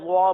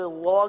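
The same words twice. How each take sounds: First: The vowel is made full with rounded lips. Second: The vowel is full without rounded lips. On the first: The speaker calls it wrong. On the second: The speaker calls it right.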